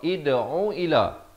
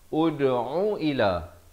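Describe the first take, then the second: First: The word begins with an i vowel. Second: The word begins with a u vowel. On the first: "baca dengan baris kasrah" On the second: "baca dengan baris dhammah"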